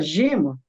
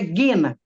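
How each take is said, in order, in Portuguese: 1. A palavra começa com som de J suave. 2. A palavra começa com som de G duro. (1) "a gente chama" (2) "mas é gena em grego"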